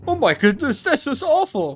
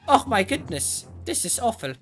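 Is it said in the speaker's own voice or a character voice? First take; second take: character voice; own voice. First: It is said in a put-on character voice. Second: It is said in the speaker's own voice.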